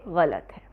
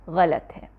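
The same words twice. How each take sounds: The two takes are said the same way.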